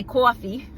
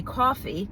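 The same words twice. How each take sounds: First: "coffee" with a New York aw vowel; New York pronunciation. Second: Said in the usual way. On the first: Shown as a demonstration. New Yorker showing the hometown word, "coffee" in New York accent. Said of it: "but I wanna say coffee". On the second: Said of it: "if you hear me say, I'll say".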